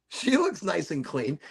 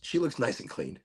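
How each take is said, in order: First: Playful put-on voice. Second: Said in the usual way.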